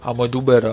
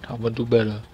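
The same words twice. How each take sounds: First: Said in the usual way. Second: Much softer, murmured to himself; quiet promise. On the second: Real, not acted. Reviewer quietly promising viewers to improve. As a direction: drop the voice and mean it under the breath.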